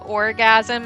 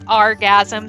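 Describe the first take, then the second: First: The first syllable sounds like 'or'. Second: The first syllable sounds like 'our'. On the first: It is the ordinary word. "instead of saying orgasm" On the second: It is something shared by everyone. "it's our thing"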